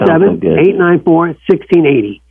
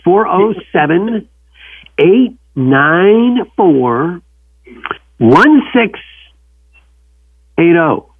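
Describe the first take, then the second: First: The number is said fast. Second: The number is said slowly.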